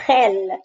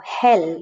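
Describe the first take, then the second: First: Gel with a guttural, scraping G like Scottish loch; throaty Spanish G. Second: Hell with a soft breath of H for the Spanish G; soft English H. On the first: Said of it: "can be quite throaty". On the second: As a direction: say hell with no throat scrape. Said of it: "it's really like an H". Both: Shown as a demonstration.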